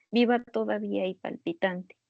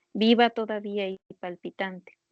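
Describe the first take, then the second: No difference in how they are said.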